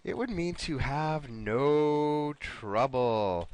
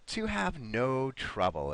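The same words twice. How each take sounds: First: Slow hint. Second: Said in the usual way. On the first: Shown as a demonstration. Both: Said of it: "Let me give you another hint here".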